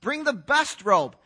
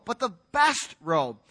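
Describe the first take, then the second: First: Said in the usual way. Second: "best" leaned on, slowed and held; stress on best. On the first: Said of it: "not any robe". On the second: Shown as a demonstration. Preacher stressing to the church which robe it is. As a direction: hit "best" hard and slow to set it apart. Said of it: "not any robe, but the best robe".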